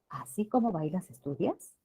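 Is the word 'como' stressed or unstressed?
unstressed. The word como is said without emphasis.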